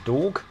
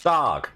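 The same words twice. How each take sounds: First: Dog said the southern English way, short open o. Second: Dog in a mock New York accent, higher and punchy. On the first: Shown as a demonstration. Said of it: "how do you say dog". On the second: Doing a New York accent for chat. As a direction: throw out Dog like a New Yorker. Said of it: "should I do a New York accent".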